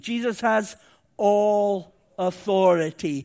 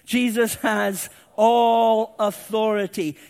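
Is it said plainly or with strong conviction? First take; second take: plainly; strong conviction. First: It is said plainly, without special conviction. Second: It is said with strong, emphatic conviction.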